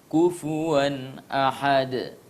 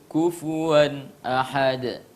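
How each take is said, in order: No difference in how they are said.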